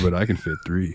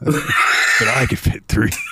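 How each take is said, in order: First: It is said in a normal speaking voice. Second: It is said in a put-on character voice.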